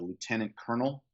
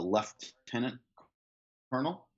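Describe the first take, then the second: First: It is said the American way. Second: It is said the Canadian way.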